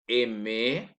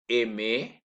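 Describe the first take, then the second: Both takes have the same delivery.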